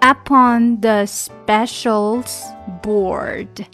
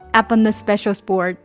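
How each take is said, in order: First: The phrase is said slowly and separately. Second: The phrase is said quickly and linked.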